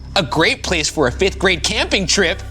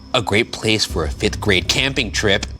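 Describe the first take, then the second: First: It is said with more energy. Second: It is said with little energy.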